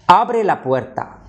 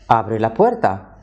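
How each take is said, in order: First: It is said as a firm command. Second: It is said as a neutral statement. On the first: Someone is told to open the door. "Open the door" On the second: It reports that someone opens the door. "She or he opens the door"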